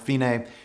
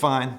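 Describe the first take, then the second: First: It is said with two syllables, fee-nay. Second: It sounds like the English word fine. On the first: It is the Italian word meaning the end. The speaker calls it right. "It's Italian for the end" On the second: It is the English word meaning okay. The speaker calls it wrong. "It looks fine"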